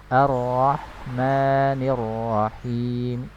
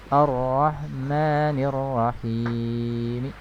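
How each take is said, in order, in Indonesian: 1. Vokal panjang pada kata Rahim dibaca sebentar. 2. Vokal panjang pada kata Rahim dibaca panjang. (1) "Dua harokat" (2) "tidak dibaca enam harokat"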